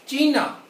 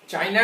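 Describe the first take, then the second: First: The first vowel sounds like 'ee'. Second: The first vowel sounds like 'eye'. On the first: This is the German way of saying it. The speaker calls it right. "आउस चीना" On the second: This is the English way of saying it. The speaker calls it wrong. "चाइना नहीं, इंग्लिश में चाइना कहते हैं"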